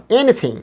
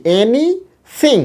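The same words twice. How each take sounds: First: এনিথিং as one whole word, high pitched; joined up. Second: এনিথিং in two slow, high parts with a gap; split into parts. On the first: (এনিথিং একত্র করে এক টানে) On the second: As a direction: pull এনিথিং apart, "এনি", pause, "থিং". (এনিথিং ভেঙে ভেঙে, টেনে, উঁচু সুরে) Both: Shown as a demonstration. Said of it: "একত্র করেন এবার".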